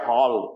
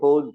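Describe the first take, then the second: First: The vowel sounds like an English open 'aw'. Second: The vowel sounds like a Gujarati 'o'. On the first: The speaker calls it right. "H A double L છે એટલે હોલ" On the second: The speaker calls it wrong. "ગુજરાતીની રીતે સહજ જે ઉચ્ચારણ કરીએ"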